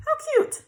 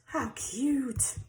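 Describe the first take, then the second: First: Much higher, louder squeal on How cute. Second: Said in the usual way. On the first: Real, not acted. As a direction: gush How cute up high.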